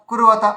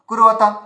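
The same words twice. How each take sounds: The two takes are said the same way.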